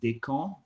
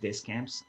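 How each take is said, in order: First: The S sounds in the name are silent. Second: The S sound in the name is pronounced. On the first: This is the correct French way. "if you want to be correct, it's more like Descamps" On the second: This is how Americans say it. "in America, everybody goes like Descamps"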